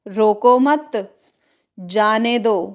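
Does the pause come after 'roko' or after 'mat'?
after mat. There is a pause after the second word. Do not stop him; let him go. "एक लिख सकते हैं रोको मत"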